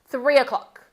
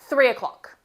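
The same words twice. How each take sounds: First: The two words run smoothly together as one. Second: The same.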